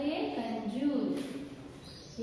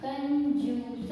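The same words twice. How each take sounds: First: ये कंजूस drawn out very slowly and softly; slow soft word. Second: कंजूस said slowly, each sound joined in turn; slow syllable blend. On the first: Teacher reading the finished word to the children, slow and soft. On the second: Teacher blending कंजूस for the children, slow. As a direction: build कंजूस slowly from its letters. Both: Shown as a demonstration. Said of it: "तो क्या होगा शब्द?".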